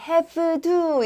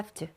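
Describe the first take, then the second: First: The v sound is fully and clearly pronounced. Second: The v sound is very weak and brief. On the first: The speaker calls it wrong. "have to 이렇게 이런 느낌이 아니고" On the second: The speaker calls it right. "거의 V 발음을 진짜 약하게 영 점 일 초만 딱 내고"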